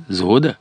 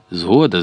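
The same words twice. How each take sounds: First: "Згода" as a question, tune rising at the end; asking for agreement. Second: "Згода" as an answer, tune falling at the end; agreeing. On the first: Leader checks comrades accept the plan, "Згода" asked with a rise. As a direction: lift the end of "Згода" to ask. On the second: Comrades accept the leader's plan, "Згода" stated with a fall. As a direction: let "Згода" fall, settled assent. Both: A narrator's reading.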